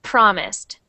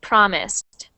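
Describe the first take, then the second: No difference in how they are said.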